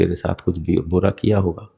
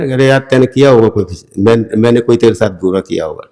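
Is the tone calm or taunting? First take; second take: calm; taunting. First: It is said calmly, without any taunt. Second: It is said in a sarcastic, taunting tone.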